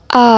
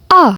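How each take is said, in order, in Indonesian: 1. Nadanya turun lalu naik. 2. Nadanya turun tajam, seperti bentakan. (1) "nada yang ketiga itu nada seperti turun terus naik" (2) "nada yang terakhir itu seperti kita membentak"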